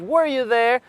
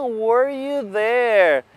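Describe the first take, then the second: First: Said in the usual way. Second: Were you there stretched slowly; slow model question. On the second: Shown as a demonstration. Teacher slowly modelling were you there for students.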